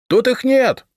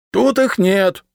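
First: Much higher, louder shout. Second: Higher, louder, leaning on ИХ; stubborn. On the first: Decurion shouting to the patrikios, loud. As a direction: shout the lie at the stairs. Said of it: "крикнул Третьяк". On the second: Decurion stubbornly answering the patrikios. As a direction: stubbornly repeat the denial. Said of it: "упрямо ответил десятник". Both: A narrator's reading.

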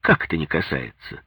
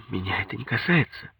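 First: Perked-up mother-in-law's retort; mildly indignant comeback question; animated challenge. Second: Put-on soft, higher-pitched young wife's denial; withdrawn denial. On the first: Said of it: "оживилась тёща". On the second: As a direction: quietly brush it off. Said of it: "сказала она". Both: A narrator's reading.

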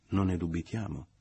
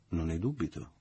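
First: Louder, pointed echo; echoing assent. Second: Unruffled, lightly stated agreement; calm assent. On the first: Michele echoing Leo's remark, pointed. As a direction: repeat it back with more punch. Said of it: "ripeté Michele". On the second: Leo answering the mother, calm. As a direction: agree without rising to the bait. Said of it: "disse Leo tranquillamente". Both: A narrator's reading.

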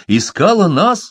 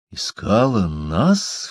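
First: Much higher and louder, rising; startled exclamation, high and loud; exclaiming. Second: Said in the usual way. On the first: A narrator's reading. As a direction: exclaim it in disbelief. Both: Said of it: "воскликнул Фолка".

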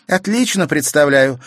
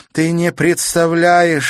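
First: Loud, high triumphant reply; girl answering the countess in triumph. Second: Furious. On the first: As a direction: answer with victory in the voice. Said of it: "торжествуя сказала Катерина". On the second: Countess furious at the broken key. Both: A narrator's reading.

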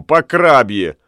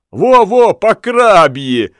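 First: Said in the usual way. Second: High, loud "Во-во", slow "по крабье"; eager agreement. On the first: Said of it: "подхватил". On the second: A narrator's reading. Lamme eagerly backs up Ulenspiegel. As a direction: chime in gleefully. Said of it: "подхватил Ламме".

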